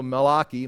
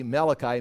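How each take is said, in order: First: Malachi as mah-LAH-kee; Hebrew pronunciation. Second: Said in the usual way. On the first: Shown as a demonstration. Teacher giving the Hebrew name, Malachi as mah-LAH-kee. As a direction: stress the ah in Malachi, ending in kee. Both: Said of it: "Tyler's and my Hebrew words".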